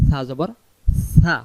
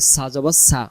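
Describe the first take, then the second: First: The consonant is a soft th made with the tongue tip. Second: The consonant is a hard hissing s sound. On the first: The speaker calls it right. "সা অক্ষরটা জিহ্বার আগা থেকে আমরা আদায় করবো" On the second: The speaker calls it wrong. "এমন যদি আওয়াজ আসে তাহলে সেটাকে সিন অক্ষরে রূপান্তরিত হয়ে সিনের উচ্চারণ হবে"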